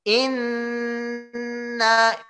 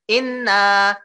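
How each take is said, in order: First: The nasal n sound is held long. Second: The nasal n sound is cut short. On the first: The speaker calls it right. "Inna tiga" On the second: The speaker calls it wrong. "inna itu belum tiga"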